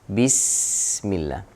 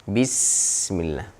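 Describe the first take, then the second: No difference in how they are said.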